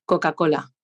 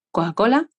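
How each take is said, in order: First: "Coca-Cola" with crisp, hit k sounds, lower; consonant-marked Coca-Cola. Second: Blur the consonants of "Coca-Cola"; vowel-led Coca-Cola; consonants swallowed. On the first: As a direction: punch each k in "Coca-Cola". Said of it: "Claro, consonanteada". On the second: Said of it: "Una consonanteada y otra sin consonantear". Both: Shown as a demonstration.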